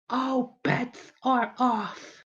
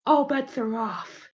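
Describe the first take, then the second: First: Very slow, high, softer menace; high character voice, word by word; drawn-out threat. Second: High, slow character voice; in-character warning. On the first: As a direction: stretch every word into a warning. Skit threat repeated for menace. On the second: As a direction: pitch it up and draw out the warning. Skit threat, first take. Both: Acted.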